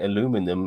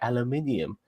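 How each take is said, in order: First: The word is said the American way, four syllables. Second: The word is said the non-American way, five syllables. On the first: The speaker calls it wrong. "Instead of saying aluminum" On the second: The speaker calls it right. "maybe you say aluminium"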